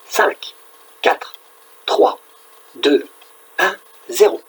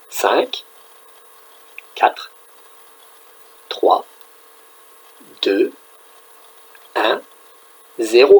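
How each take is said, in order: First: The numbers are counted down very quickly. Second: The numbers are counted down slowly. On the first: "le plus vite possible" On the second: "Plus lentement"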